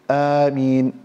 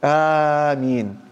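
First: The vowel is kept short. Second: The vowel is drawn out long. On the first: "you recite it in a shortened way" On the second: "he elongated his voice with it"

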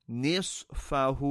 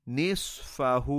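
No difference in how they are said.

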